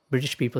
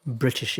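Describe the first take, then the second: First: "British people" with a crisp T, the British way; British pronunciation. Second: "British" with the T flapped like a D; American British. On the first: Teacher imitating how Britons say "British people". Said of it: "British people say". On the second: Teacher imitating how Americans say "British". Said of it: "That's how American would say". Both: Shown as a demonstration.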